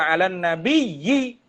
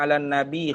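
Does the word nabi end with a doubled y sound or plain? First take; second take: doubled; plain. First: The word ends with a doubled y sound. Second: The word ends plainly without a doubled y. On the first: The speaker calls it right. "Baca 'alan nabiyyi. ... Dengan tasydid" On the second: The speaker calls it wrong. "Takut kita baca 'alan nabi khairi man qad wahada. Tak kena"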